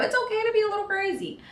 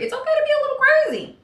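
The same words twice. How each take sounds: First: Playful repeat. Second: High, fast, loud silly voice; mock crazy. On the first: Pretend. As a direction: say it again high and quick, half joking. Repeat of the crazy line. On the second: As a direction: go up high and playful, acting a little crazy.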